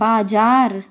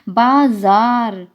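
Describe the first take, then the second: First: The middle consonant is a plain j sound. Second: The middle consonant is a z sound. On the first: The speaker calls it wrong. "हम साधारण बोलचाल में बोलते हैं बाजार" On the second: The speaker calls it right. "जय के नीचे बिंदी लगती है तो कहलाता है बाजार"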